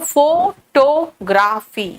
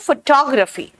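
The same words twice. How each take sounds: First: The word is said with a Hindi pronunciation. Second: The word is said with an English pronunciation. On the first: "Hindi में कहते हो फोटोग्राफी" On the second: "English में कहते हैं फोटोग्राफी"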